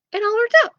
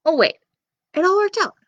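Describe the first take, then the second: First: High, smug, rising repeat. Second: High, bright sudden realization; fake surprise. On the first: Acted. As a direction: say it like you planned it. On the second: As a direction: act as if it suddenly dawns. Narrator teasing Jack, pretend surprise.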